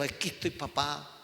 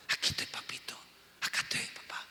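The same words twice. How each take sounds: First: Said in the usual way. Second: Whispered "Aquí estoy, papito", tender and close; intimate whisper. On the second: Shown as a demonstration. Pastor showing the church how to pray in secret, whispering. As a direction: breathe it out like a child to a father. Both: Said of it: "Vas simplemente a conocerlo".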